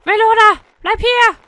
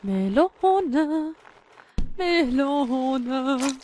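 First: Loud, high yell; calling out. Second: Sung, long, wavering singsong; sung, stretch each syllable out tunefully; drawn-out crooning. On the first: Player ordering the melon to stay, yelling. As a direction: shout after it urgently. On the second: Sung, player luring the melon back, drawn-out singsong. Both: Pretend.

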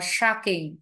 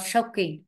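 First: "shocking" as SHAH-king, open A; alternative A vowel. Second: "shocking" as SHOKE-ing, long O; wrong "shocking" with an OH vowel; mispronounced shocking. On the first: Teacher offers the second accepted reading, alternative A vowel. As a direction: model "shocking" with an A sound. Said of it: "or A". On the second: Teacher shows what to avoid, mispronounced shocking. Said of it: "not shocking". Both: Shown as a demonstration.

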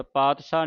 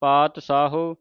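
First: ਪਾਤਸ਼ਾਹ run together, with no final "ho"; quick ਪਾਤਸ਼ਾਹ ending on the long aa; wrong pronunciation demo. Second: ਪਾਤ ਸਾਹੋ with a plain s and final "ho"; correct pronunciation demo. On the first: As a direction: show the everyday mistaken form ਪਾਤਸ਼ਾਹ. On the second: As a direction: sound every syllable, ਪਾਤ ਸਾਹੋ. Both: Shown as a demonstration. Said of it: "ਪਾਤਸ਼ਾਹ ਨਹੀਂ ਕਹਿਣਾ".

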